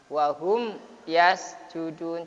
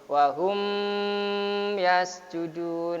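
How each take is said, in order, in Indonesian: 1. Huruf m diucapkan jelas, tanpa dengung nasal yang ditahan. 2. Huruf m ditahan dengan dengung nasal yang panjang. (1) "cukup kayak gitu" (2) "tidak perlu didengungkan"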